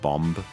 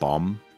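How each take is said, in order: First: The final B sound is pronounced. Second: The final B sound is silent. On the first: The speaker calls it wrong. "do you realize it's not bomb?" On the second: The speaker calls it right. "you don't pronounce the B in bomb"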